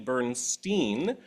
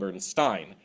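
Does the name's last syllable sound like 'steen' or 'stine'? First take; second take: steen; stine. First: The last syllable does not rhyme with 'Rubinstein'. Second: The last syllable rhymes with 'Rubinstein'. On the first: "the original pronunciation" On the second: "take after the famous pianist [name]"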